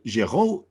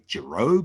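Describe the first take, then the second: First: The name is pronounced the French way. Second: The name is pronounced the English way. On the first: "is the French way to pronounce it" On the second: "a bit more anglicized"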